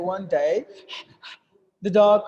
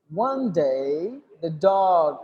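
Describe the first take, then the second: First: A full stop with a breath follows 'one day'. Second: A brief held pause follows 'one day'. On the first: The speaker calls it wrong. "Not like that" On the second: The speaker calls it right. "I just slight pause. I am holding the breath"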